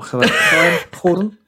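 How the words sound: The names start with a Spanish H-like sound.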